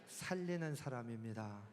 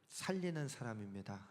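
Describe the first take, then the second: No difference in how they are said.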